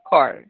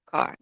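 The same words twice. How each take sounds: First: The final R sound is pronounced. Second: The final R sound is dropped. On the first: "kalau American R-nya dibaca" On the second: "British R-nya itu tidak dibaca"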